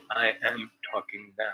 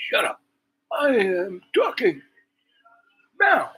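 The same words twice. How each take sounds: First: Said in the usual way. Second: High, loud, slowly spaced-out mock command; mimicked outburst. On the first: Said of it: "I said, "You said". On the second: Woman to the man interjecting, mimicked indignant outburst. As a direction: caricature someone indignantly silencing an interrupter, each word drawn out. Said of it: "she just went off".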